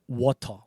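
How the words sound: It is said with a British accent.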